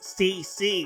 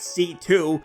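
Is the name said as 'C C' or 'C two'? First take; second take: C C; C two. First: The name is said as two letter Cs. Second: The name is said as letter C, then two. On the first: The speaker calls it right. "It's C C" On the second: The speaker calls it wrong. "not C two"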